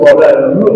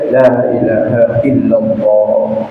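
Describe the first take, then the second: First: The phrase is rushed and slurred together. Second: The phrase is slow with clear long vowels. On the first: The speaker calls it wrong. "nggak jelas" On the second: The speaker calls it right. "mestinya santai"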